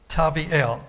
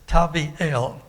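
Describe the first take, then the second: First: The last syllable sounds like 'eel'. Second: The same.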